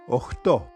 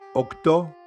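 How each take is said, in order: First: The middle consonant is a fricative, h. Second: The middle consonant is a stop, k. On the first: This is the informal form of the word. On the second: This is the formal form of the word.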